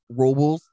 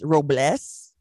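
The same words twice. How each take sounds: First: Robles is pronounced in an English style. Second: Robles is pronounced in a Spanish style. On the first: This is how the locals say it. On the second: This is the correct pronunciation. "correctly, it's Robles"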